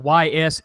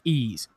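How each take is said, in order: First: It is said as two separate spelled letters. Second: It is said as one word sounding like 'ease'. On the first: The speaker calls it wrong. "Y S eight" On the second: The speaker calls it right. "but it's pronounced Ease"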